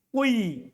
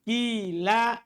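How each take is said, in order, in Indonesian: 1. Vokal pertama adalah i dengan sedikit bunyi u. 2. Vokal pertama adalah bunyi i murni. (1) "Mencampurkan kasro dengan sedikit suara dhammah" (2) "Kasru ma qoblal alif... fatuqlabul alifu ya'an"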